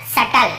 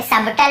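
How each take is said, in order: First: "सटल" said sa-tal, no B; silent B. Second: "सबटल" said sab-tal; B pronounced. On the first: Teacher shows students the correct reading, "सटल" said sa-tal. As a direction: skip B in "सटल". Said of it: "यहाँ पे सबटल नहीं पढ़ रहे हैं". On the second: Teacher shows what not to read, "सबटल" said sab-tal. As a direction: sound the B in "सबटल". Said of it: "सबटल नहीं पढ़ रहे हैं". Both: Shown as a demonstration.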